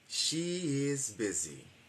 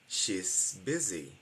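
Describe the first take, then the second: First: She and is are two separate full words. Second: She and is merge into one short syllable.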